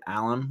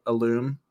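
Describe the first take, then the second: First: "alum" said AL-um, short second vowel; local pronunciation. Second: "alum" said uh-LOOM, long oo; corrected pronunciation. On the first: Showing how Central Ohioans say it, "alum" as AL-um. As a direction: stress the first syllable of "alum". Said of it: "when I see A L U M, I say". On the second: Correcting their own hometown habit, "alum" as uh-LOOM. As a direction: stress the second syllable of "alum". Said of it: "that's not how you pronounce it". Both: Shown as a demonstration.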